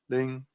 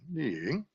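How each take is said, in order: First: The pitch stays level across the word. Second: The pitch rises and then falls. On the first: "One is flat" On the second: "rising and lowering"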